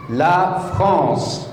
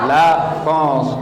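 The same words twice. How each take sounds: First: La France with a French r and nasal vowel; French pronunciation. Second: La France echoed as a learner would; student-style repeat. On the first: Teacher models La France for students to repeat. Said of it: "Repeat after me". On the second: Learner repeating La France after the teacher. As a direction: repeat La France back like the class. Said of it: "Very good". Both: Shown as a demonstration.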